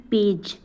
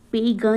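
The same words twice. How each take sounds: First: Said in the usual way. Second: पे ग, page misread with hard "g"; mispronounced page. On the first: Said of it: "क्या पढ़ रहे हैं". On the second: Shown as a demonstration. Teacher showing how not to read page, पे ग with hard "g". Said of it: "पे ग ना पढ़ के".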